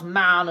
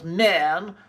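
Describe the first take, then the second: First: Said in the usual way. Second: "man" said as clipped-vowel "men"; posh old-RP "men" for "man"; heightened RP pronunciation. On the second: Shown as a demonstration. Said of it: "heightened received pronunciation and say".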